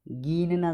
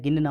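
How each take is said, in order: First: गिनना slowly as "geen-naa"; wrong long ee. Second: गिनना as "gin-naa"; short i. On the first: Teacher showing the error, long-ee गिनना. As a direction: stretch the first vowel of गिनना. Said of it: "गलत है". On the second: Teacher correcting students, short-i गिनना. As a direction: clip the first vowel of गिनना. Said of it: "होता है". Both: Shown as a demonstration.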